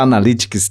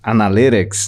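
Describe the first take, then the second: First: It is said with a Portuguese accent. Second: It is said with an English accent.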